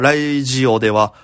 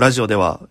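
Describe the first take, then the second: First: Radio sounds like English 'radio'. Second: Radio sounds like Japanese 'rajio'. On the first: The speaker calls it wrong. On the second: The speaker calls it right.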